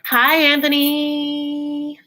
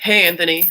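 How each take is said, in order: First: The greeting is said in a flirtatious tone. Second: The greeting is said in a plain tone.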